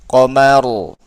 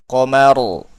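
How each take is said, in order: Both takes have the same delivery.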